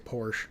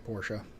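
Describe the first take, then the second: First: It is said the American way. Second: It is said the German way.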